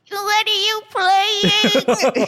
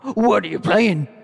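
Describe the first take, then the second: First: It is said in a scary, horrifying voice. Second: It is said in a normal voice.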